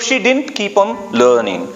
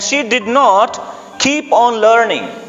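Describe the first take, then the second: First: 'Did not' is contracted to 'didn't'. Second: 'Did not' is said in full.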